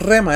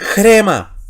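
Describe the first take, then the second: First: The word begins directly with an r sound. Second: A raspy h-sound comes before the r. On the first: The speaker calls it wrong. "la palabra no es rema" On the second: The speaker calls it right. "Antepone sonido J a la letra"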